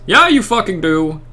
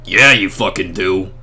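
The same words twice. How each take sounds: First: Said in the usual way. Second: Much lower reindeer voice; a deep mock reindeer voice; Blitzen voice. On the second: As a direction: growl it low as Blitzen the reindeer. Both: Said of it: "This is my Blitzen voice now".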